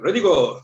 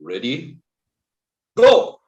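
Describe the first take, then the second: First: The words are said with no pause between. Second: There is a pause between the words.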